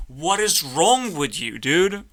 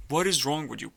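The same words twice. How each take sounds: First: Exasperated shout. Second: Said in the usual way. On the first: Acted. Berating the clown duck.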